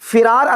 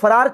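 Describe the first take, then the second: First: The first syllable has a short 'i' vowel. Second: The first syllable has a short 'a' vowel. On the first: This is the Arabic form of the word. "लफ्ज फिरार अरबी वाला" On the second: This is the form used in Urdu. "Urdu में फरार चलता है"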